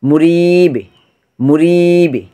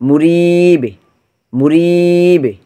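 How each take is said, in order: The two takes are said the same way.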